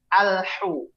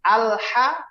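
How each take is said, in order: First: The vowel after the h is 'u'. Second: The vowel after the h is 'a'. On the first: The speaker calls it wrong. "menjadi dhammah" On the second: The speaker calls it right. "harokat fathah"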